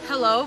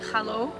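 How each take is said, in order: First: It is said in the speaker's ordinary accent. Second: It is said with a put-on German accent. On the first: "I have to say hello" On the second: "but I have to pronounce it like hello"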